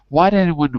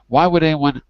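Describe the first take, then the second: First: Would is contracted and joined onto why. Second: Would is said in full as a separate word. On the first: "I'd probably say it like that as a contraction" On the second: "instead of why would"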